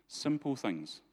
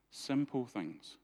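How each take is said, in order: First: Said in the usual way. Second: "Simple things" said slowly, each word weighed; preacher lingering on "Simple things"; slow emphatic repeat. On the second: Shown as a demonstration. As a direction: repeat it slowly to drive it home.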